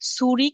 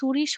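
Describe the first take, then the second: First: The word ends with a hard 'k' sound. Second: The word ends with a soft 'sh' sound.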